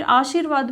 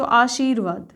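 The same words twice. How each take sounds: First: आशीर्वाद with a short i, "aa-shir-vaad"; short-vowel mistake. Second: Said in the usual way. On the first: Shown as a demonstration. Teacher showing a common error, आशीर्वाद with short middle i. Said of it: "छोटी की मात्रा लगाते हैं". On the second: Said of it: "जहाँ उच्चारण होता है".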